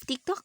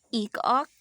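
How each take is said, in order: First: The T sounds are clearly pronounced. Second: The T sounds are left out.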